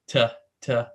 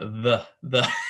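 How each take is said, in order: First: The word begins with a plain t sound. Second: The word begins with a th sound. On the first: The speaker calls it wrong. "She she always says t t" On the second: The speaker calls it right. "It's like no the the"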